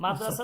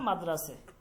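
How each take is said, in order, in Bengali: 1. শব্দটি 'a' স্বরধ্বনি দিয়ে শেষ হয়। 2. শব্দটি 'e' স্বরধ্বনি দিয়ে শেষ হয়।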